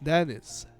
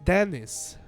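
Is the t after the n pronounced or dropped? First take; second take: dropped; dropped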